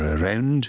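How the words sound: The vowel is said another Scottish way. "You might hear around in other parts"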